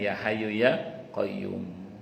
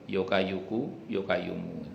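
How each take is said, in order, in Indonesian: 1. Vokal dan konsonan Arab diucapkan dengan jelas. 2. Vokalnya menjadi o dan konsonan Arab disederhanakan. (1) "Kalau kita kan sudah ngaji" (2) "Kalau orang tua kita dulu ya Hayyu ya Qayyum itu dibaca apa?"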